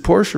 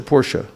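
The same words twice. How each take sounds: First: "Porsche" said as "porsh"; "Porsche" as one syllable, ending on sh. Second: "Porsche" said as "POR-sha"; "Porsche" in two syllables, ending in -sha. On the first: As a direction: say "Porsche" with a silent final e. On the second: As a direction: sound the final e of "Porsche" as uh. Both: Shown as a demonstration. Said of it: "Is it Porsche or Porsche?".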